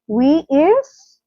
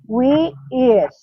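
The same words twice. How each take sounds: First: The voice rises at the end. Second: The voice does not rise at the end. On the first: It questions the error. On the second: A plain statement.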